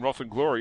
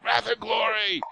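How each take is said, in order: First: The vowel in 'wrath' sounds like in 'cot'. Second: The vowel in 'wrath' sounds like in 'cat'. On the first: "I always say Roth" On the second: "he's like"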